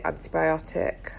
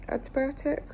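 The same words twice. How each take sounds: First: Said in the usual way. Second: Doubtful questioning rise on the word; unsure. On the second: Real, not acted. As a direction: say it like you're not sure of the name. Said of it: "I don't feel like it's called antibiotic cream".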